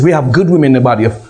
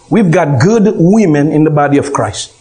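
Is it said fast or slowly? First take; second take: fast; slowly. First: It is said fast. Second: It is said more slowly.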